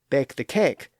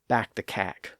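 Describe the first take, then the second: First: The vowels sound close to the modern pronunciation. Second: The vowels are an older, open 'ah'-like sound. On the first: This is a newer pronunciation leading to today's. "some people saying, ... a precursor of our modern pronunciation" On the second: This is how older, educated speakers said it. "some older and educated speakers say"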